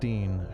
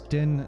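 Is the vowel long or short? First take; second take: long; short. First: The vowel is long, as in 'see'. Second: The vowel is short, as in 'in'. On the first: The speaker calls it wrong. "How dare you say it incorrectly?" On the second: The speaker calls it right. "It's Din, not Dean"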